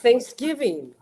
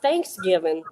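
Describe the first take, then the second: First: The stress is on the second syllable. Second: The stress is on the first syllable. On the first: The speaker calls it right. "It's Thanksgiving" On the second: The speaker calls it wrong. "it's not Thanksgiving"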